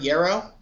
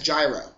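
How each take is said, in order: First: Gyro is said in its original, non-English way. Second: Gyro is said with an English-style pronunciation. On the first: The speaker calls it right. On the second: The speaker calls it wrong.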